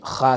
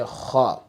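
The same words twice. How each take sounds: First: The vowel after the consonant is an open A. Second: The vowel after the consonant is a rounded O. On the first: The speaker calls it wrong. "don't make um, kha sound" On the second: The speaker calls it right. "Say kha"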